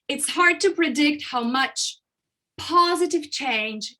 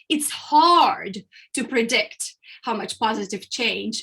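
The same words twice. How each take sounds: First: A pause, then the second part is emphasized. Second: The word hard carries the strong emphasis. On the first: The positive change is what the listener remembers. "you can put emphasis on the second part of the sentence" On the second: The difficulty is what the listener remembers. "if I put emphasis on the word hard"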